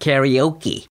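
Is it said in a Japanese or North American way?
North American. It is said with North American pronunciation.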